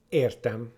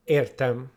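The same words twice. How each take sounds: The two takes are said the same way.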